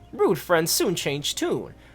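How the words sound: The line is read in a high-pitched voice. The speaker calls it wrong.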